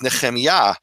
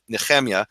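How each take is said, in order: First: The stress falls on the last syllable. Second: The stress falls before the last syllable. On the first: This is the proper Hebrew way of saying it. The speaker calls it right. "The proper Hebrew, undisputable, ... Because Yah is the emphasized syllable" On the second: This is an Eastern European way of saying it. The speaker calls it wrong. "That's actually an Eastern European pronunciation of my name"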